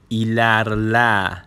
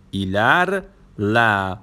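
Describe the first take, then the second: First: Said in the usual way. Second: "ایلرله" drawn out, pause before the final "له"; split for learners. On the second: Shown as a demonstration. Teacher showing learners a new word, "ایلرله" split slowly. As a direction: break "ایلرله" into two slow parts, ایلر... له.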